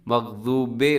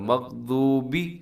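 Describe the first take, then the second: First: The final vowel is an 'eh' sound. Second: The final vowel is an 'ee' sound. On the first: The speaker calls it wrong. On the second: The speaker calls it right.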